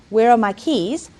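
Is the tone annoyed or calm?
calm. It is asked in a calm, friendly tone.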